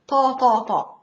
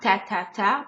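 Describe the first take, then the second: First: The t is a heavy, emphatic sound. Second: The t is a plain, light sound. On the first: The speaker calls it right. "It's the tough version of T ... but it's ta ta ta" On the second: The speaker calls it wrong. "So it's not ta ta ta"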